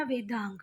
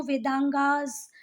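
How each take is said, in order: First: वेदांग ending on "ng", lower and softer; correct reading. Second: वेदांगास with an added "aas" ending; wrong reading. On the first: Teacher answering her own question, short-ended low वेदांग. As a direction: close वेदांग on the nasal, no "aas". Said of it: "क्या पढ़ना?". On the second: Teacher warning students off the English plural, "aas" on वेदांगास. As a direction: tack "aas" onto the end, वेदांगास. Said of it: "इसको वेदांगास नहीं पढ़ना". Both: Shown as a demonstration.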